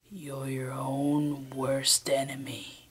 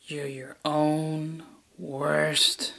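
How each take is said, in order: First: Slow breathy whisper; sinister whisper. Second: Very slow, softer villain line; slow sinister delivery. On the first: Villain whispers the full line in the final take. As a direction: whisper the threat slowly. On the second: Villain drags out the line very slowly in a retake. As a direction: stretch every word out. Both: Acted.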